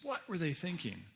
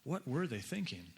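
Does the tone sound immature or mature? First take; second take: immature; mature. First: It is asked in a less mature tone. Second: It is asked in a more mature tone.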